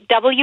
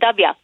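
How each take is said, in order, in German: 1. Der Buchstabe wird vollständig als double-u ausgesprochen. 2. Der Buchstabe wird zu einem knappen dubya verkürzt. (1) "nicht W ausgesprochen" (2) "wird im Süden der Vereinigten Staaten ... sondern Dabia"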